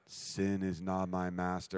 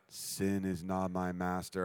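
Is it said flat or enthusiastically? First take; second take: flat; flat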